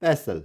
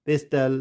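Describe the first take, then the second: First: "pestle" as PESS-ul, no T; silent T. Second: "pistol" as PES-TUL, T pronounced; wrong sounded T. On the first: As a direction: leave the T out of "pestle". ("pestle" में टी silent, पेसल) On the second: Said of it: "इस तरह से हम pronounce नहीं करेंगे". ("pistol" को पेस्टल, टी बोलकर) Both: Shown as a demonstration.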